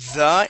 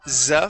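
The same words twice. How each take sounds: First: It begins with a voiced th sound. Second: It begins with a z sound. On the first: The speaker calls it right. "you are saying the" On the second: The speaker calls it wrong. "not the ... you were pronouncing Z sounds there"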